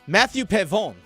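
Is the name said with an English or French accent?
French. The name is said with a French accent. "Because he's French, I got to say it in the French way"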